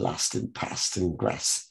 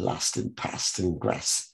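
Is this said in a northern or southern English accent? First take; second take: northern; northern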